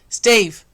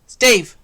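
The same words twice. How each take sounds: First: It is said in a dark, deep voice. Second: The same.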